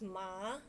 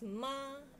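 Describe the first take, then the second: First: The syllable is said in the second tone. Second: The syllable is said in a flat tone. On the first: It means a sore muscle. "the second tone is ma" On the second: It means mother. "the first one is ma is flat"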